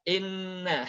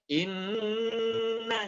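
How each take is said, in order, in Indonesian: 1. Bunyi sengau 'nn' dipotong pendek dan diucapkan terburu-buru. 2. Bunyi sengau 'nn' ditahan dalam waktu yang lama. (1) "in-nya sering tergesa-gesa" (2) "harusnya inna syani'aka"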